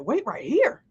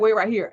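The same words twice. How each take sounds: First: The same words as a rising question; incredulous echo. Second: Said in the usual way. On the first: Retold or imitated. She echoes the man's instruction with a puzzled rise. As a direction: throw his words back, puzzled. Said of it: "And I'm like". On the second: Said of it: "And I'm like, "Wait right here?".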